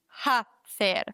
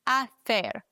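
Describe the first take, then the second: First: The word starts with an audible h sound. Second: The word starts with a vowel, no h sound. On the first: The speaker calls it wrong. "nicht hacer" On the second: The speaker calls it right. "das H wird nie ausgesprochen... Deswegen hacer"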